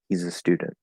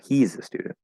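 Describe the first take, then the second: First: The stress falls on the word student. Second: The stress falls on the word he's. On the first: It is a plain, normal statement. "he's is not stressed. A is not stressed. And it's just nice and easy" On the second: This person, not someone else, is the student. "I'm giving intonation to the contracted form"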